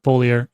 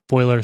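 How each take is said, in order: First: It is said as three syllables, foh-lee-ar. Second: It is said as two syllables, foy-ler. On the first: "some people pronounce it foliar" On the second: "some people pronounce it foiler"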